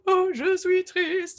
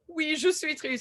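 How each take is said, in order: First: It is said very sadly, with strong emotion. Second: It is said flatly, without much emotion.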